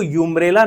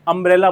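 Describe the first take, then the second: First: The word begins with a "you" sound. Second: The word begins with an "uh" sound. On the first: The speaker calls it wrong. "यूम्ब्रेला नहीं बोला जाता है" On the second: The speaker calls it right. "अम्ब्रेला बोला जाता है"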